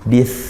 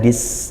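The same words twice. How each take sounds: First: It ends with a soft th sound. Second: It ends with a hissing s sound. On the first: The speaker calls it right. "sa sukun ya, ujung lidah ke ujung gigi jari atas" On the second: The speaker calls it wrong. "jangan dis itu sin"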